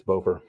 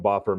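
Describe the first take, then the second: First: "Bofer" with long o as in "go"; Bofer pronunciation. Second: "Boffer" with short o as in "off"; Boffer pronunciation. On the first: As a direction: say "Bofer" as BOH-fer, long vowel. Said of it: "I always called him Boffer". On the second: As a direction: say "Boffer" as BOFF-er, short vowel. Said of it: "Maybe it's Bofer". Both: Shown as a demonstration.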